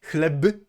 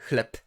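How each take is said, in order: First: "Chleb" with a fully voiced, released b at the end; voiced final b. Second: "chleb" ending in a crisp voiceless p; final devoicing. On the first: Teacher showing the spelling before the rule, voiced ending. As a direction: sound out "Chleb" as written, khleb-uh. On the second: Teacher showing how Polish bread is really pronounced, devoiced ending. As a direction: say "chleb" as khlep. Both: Shown as a demonstration. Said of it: "is pronounced as if it were".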